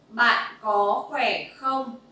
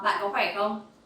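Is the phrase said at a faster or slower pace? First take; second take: slower; faster. First: The phrase is spoken at a slower pace. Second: The phrase is spoken at a faster pace.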